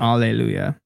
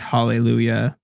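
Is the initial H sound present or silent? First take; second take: silent; present. First: The word begins with a vowel sound. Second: The word begins with an H sound. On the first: This is the original Hebrew pronunciation. "which with the H is silent" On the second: This is the common modern pronunciation. "We pronounce it with the H"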